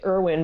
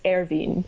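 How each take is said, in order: First: The name is said with an anglicized pronunciation. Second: The name is said with its original pronunciation. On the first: The speaker calls it wrong. "I say Irwin" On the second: The speaker calls it right. "but it's Erwin"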